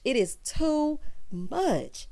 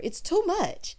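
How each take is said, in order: First: Slow, each word "It is too much" weighted; drawn-out "too much"; emphatic. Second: Said in the usual way. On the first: Real, not acted. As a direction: lean hard on "too". Slowed emphatic repeat.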